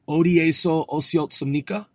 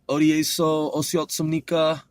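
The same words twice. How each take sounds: First: The voice rises at the end like a question. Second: The voice falls at the end like a statement. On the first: It asks a question. The speaker calls it right. "I should make it not declarative. I'm asking the question" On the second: It sounds like a statement. The speaker calls it wrong. "that sounds more declarative"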